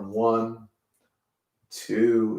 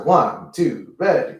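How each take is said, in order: First: The count is said at a slow pace. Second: The count is said at a fast pace.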